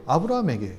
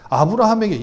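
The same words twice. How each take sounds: First: Said in the usual way. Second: 아브라함에게 repeated louder with a falling finish; emphatic repeat. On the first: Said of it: "아브라함에게, repeated louder". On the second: Shown as a demonstration. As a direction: hit 아브라함에게 hard the second time. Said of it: "아브라함에게. said before".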